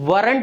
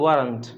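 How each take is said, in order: First: The r sound is pronounced strongly. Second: The r sound is light and slight. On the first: The speaker calls it wrong. "वरंट नहीं बोलेंगे यहाँ पे, आर को बहुत ज़्यादा stress नहीं करेंगे" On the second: The speaker calls it right. "American pronunciation ... हल्का सा टच आर का करेंगे"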